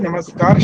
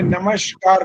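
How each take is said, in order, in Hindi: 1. बीच का व्यंजन 's' ध्वनि है। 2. बीच का व्यंजन 'sh' ध्वनि है। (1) "नमस्कार शब्द बोलने में कोई आपत्ति नहीं है" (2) "श जोड़ा है, स नहीं बोला"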